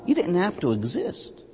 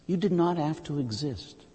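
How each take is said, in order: First: Said in the usual way. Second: "did not" pulled apart and weighted; stress on did not. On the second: Shown as a demonstration. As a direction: pull "did not" apart, each word heavy.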